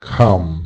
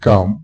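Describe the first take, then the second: First: The first consonant has a puff of air. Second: The first consonant has no puff of air. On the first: The speaker calls it right. "আমরা বলবো খাম" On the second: The speaker calls it wrong. "না এটি কাম না বলে"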